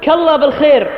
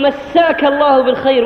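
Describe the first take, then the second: First: The first word is clipped to a single syllable. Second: The first word is said in full. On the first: It compares someone to God. The speaker calls it wrong. "وهذا خطأ" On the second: It wishes someone a good evening. The speaker calls it right. "لابد أن نقول"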